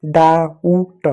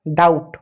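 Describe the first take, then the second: First: डाउट stretched in pieces, daa-oo-t, no b; sounded out slowly. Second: Said in the usual way. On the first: Shown as a demonstration. Teacher revealing the reading, डाउट slowly piece by piece. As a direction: draw out डाउट very slowly with silent b. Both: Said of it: "क्या हो गया?".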